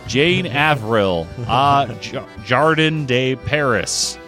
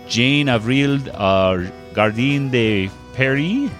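First: The name is said with American pronunciation. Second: The name is said with French pronunciation. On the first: The speaker calls it wrong. "I will say it the totally incorrect way. ... that's how the Americans say it" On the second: The speaker calls it right. "That's exactly how you pronounce it"

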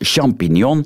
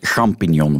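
First: The first sound is a soft 'sh'. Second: The first sound is a throaty rasp. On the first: The speaker calls it wrong. "En dat klopt voor mij helemaal niet" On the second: The speaker calls it right. "dat moet champignon worden"

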